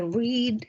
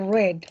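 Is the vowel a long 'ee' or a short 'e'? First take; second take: long ee; short e. First: The vowel is a long 'ee' sound. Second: The vowel is a short 'e' sound. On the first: "con una I larga" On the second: "se dice red, como el color rojo"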